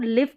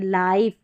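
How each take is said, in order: First: The vowel is a short 'i' sound. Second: The vowel is the long 'eye' sound. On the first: The speaker calls it wrong. "इसको लिव करके नहीं पढ़ेंगे" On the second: The speaker calls it right. "आई का उच्चारण आई करके होगा"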